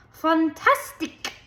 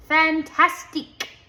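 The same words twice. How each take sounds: First: High, slow, dramatic foreign Fantastic!; exclaimed in foreign accent. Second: Loud, high French "Fantastique"; French-style exclamation. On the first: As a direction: gush it like a flamboyant dance teacher. Missus Walush exclaims. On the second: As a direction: show off with a French flourish. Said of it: "said Terrence". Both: A narrator's reading.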